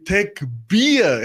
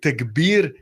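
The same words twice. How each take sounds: First: The ending sounds like the English word beer. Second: The word is said with Arabic pronunciation. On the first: "He say tekbir and beer like in English beer" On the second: "like in Arabic tekbir"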